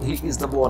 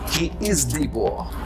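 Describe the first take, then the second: First: The article is pronounced with a short weak vowel. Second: The article is pronounced with a long 'ee' vowel. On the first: The speaker calls it wrong. "यहां he is द boy नहीं करेंगे" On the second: The speaker calls it right. "हम उसका उच्चारण हमेशा डी करेंगे"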